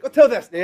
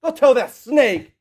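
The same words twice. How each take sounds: First: Louder, punchy "Go tell that snake"; defiant retort. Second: Slow, loud "Go tell that snake", leaning on "tell"; slow emphatic retort. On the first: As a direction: snap it out boldly at Herod. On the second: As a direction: drag each word out to make it sting. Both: Retold or imitated. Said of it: "a snake's a good one".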